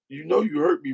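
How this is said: It is said seriously and with conviction. The hurt is still deeply felt. "she said it with conviction"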